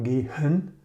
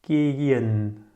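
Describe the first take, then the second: First: Gehen with the h sounded, "gay-HEN"; wrong pronunciation. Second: Gehen drawn out as "GAAY-en", h silent; correct pronunciation. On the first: Teacher showing what it's not, gehen with audible h. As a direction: breathe a clear h in the middle of gehen. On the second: Teacher correcting the mistake, gehen with silent h. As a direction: run gehen's vowels together without any h. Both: Shown as a demonstration. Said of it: "it's not gehen".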